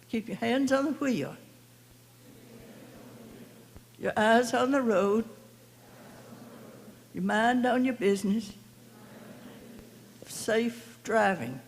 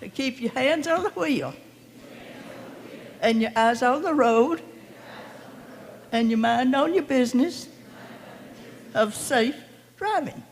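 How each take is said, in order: First: It is said in a calm, plain way. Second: It is said with lively, peppy energy.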